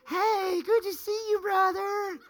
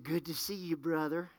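First: High, sugary put-on hello; fake friendly greeting. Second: Soft, low retold greeting; quiet retold greeting. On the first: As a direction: overdo the fake smile in your voice. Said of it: "Put that little fake face on". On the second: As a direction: quietly repeat what they said to you. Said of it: "they smiled at me and said".

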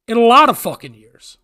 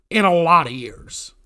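First: Higher, louder burst on "lot of fucking years"; indignant, with "lot" punched; emphatic repeat. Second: Said in the usual way. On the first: Real, not acted. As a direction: hammer "lot" hard, high and loud.

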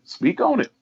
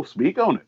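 First: A soft, very high call that climbs upward; hype urge, rising. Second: A soft high call to go on, closing down; hype urge, falling. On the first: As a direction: Speak on it, higher still and soft, lifting at the end. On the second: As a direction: Speak on it, much higher and softer, dropping at the end. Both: Real, not acted. Cheering the guest on.

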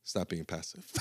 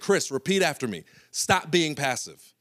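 First: Soft, low, laughing mumble; limp repeat. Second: Coach command. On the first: Chris repeating the coach's words, soft and limp. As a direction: say it with no conviction. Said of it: "And he said". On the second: Coach making Chris repeat after him, higher and louder. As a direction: drill it in like a coach. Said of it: "he's like". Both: Retold or imitated.

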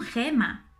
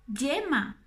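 First: "gema" with a throaty j; jota in gema. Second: "yema" with a soft y. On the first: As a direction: contrast "gema" with "yema". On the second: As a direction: model "yema" against "gema". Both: Shown as a demonstration. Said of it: "No te confundas con gema".

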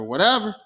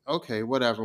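First: Louder, sharper whatever; annoyed brush-off. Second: Dismissive. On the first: TVA agents dismiss Loki again, louder and annoyed. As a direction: snap the second whatever back. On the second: TVA agents brush Loki off, low and dismissive. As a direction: shrug it off, not interested. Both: Acted.

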